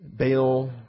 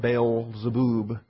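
First: The last syllable has a short 'uh' vowel. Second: The last syllable has a long 'oo' vowel. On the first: The speaker calls it wrong. "rather than bub" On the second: The speaker calls it right. "it should be boob"

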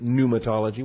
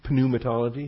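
First: The word begins with an N sound. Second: The word begins with an audible P sound. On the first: The speaker calls it right. "with a silent P" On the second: The speaker calls it wrong. "Starts with a P. Pneumatology, if you want. Pronounce it that way. But people would laugh at you"

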